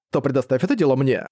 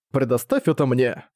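First: Said in the usual way. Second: Slow, even robotic words. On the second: Acted. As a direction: speak it slowly like a robot. (медленный голос робота) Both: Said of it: "сказала она голосом робота".

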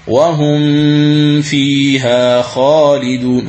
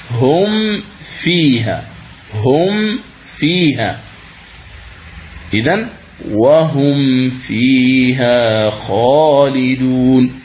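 First: وهم فيها sung slowly with the meem hidden into the faa; slow chant with the meem hidden before فيها; wrong tajweed. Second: هم فيها slow with a clear meem before فيها; slow careful recitation with a distinct meem; correct tajweed. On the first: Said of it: "هذا خطأ". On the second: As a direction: sound the meem of هم fully, then فيها. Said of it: "هذه هي القراءة الصحيحة". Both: Shown as a demonstration.

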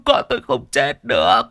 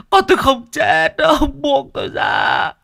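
First: Louder, pleading, falling on "được"; desperate denial. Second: Father screaming denial while held back; crying shout. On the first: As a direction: insist through tears she can't be dead. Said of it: "đã mất bình tĩnh". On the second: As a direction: scream "không chết" through tears and struggle free. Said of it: "Ông nấc lên từng tiếng". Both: Acted.

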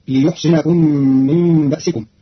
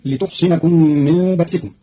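First: ليحصنكم with ya, liyuhsinakum; Qalun reading. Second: لتحصنكم with ta, lituhsinakum; standard reading. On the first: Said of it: "فتصير". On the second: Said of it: "بالياء مضمومة بدل التاء". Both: Shown as a demonstration.

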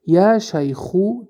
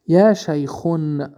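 First: یا شیخو ending in -u with no n, said slowly and higher; correct form without nunation. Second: یا شیخون with the -un ending kept, said slowly; wrong form with nunation. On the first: Teacher shows students the correct vocative, said slowly and higher. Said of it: "درست". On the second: Teacher shows students the wrong vocative, said slowly with -un. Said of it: "خطا". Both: Shown as a demonstration.

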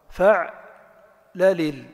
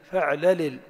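First: فعللل drawn out slowly with final -un; slow فعللل ending in a ringing -un; pattern with nunation. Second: فعللل cut short on a silent final consonant; short فعللل stopped dead on the last consonant; pattern with pausal stop. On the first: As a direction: stretch فعللل and end on -un. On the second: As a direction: clip فعللل at the end, no -un. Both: Shown as a demonstration. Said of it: "أنا أنطق الكلمة مرة منونة ومرة ساكنة".

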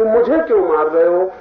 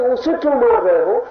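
First: मुझे punched loud and higher in protest; stress on मुझे. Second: उसे set apart in a high, loud protest; stress on उसे. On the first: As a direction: hit मुझे hard, as the one struck. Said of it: "ये ख्याल आ गया कि". (ज़ोर से मुझे पर बल) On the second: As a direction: raise the voice and point to उसे. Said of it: "ऐसा नहीं लगा कि". (ऊँची आवाज़ में उसे पर ज़ोर) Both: Retold or imitated.

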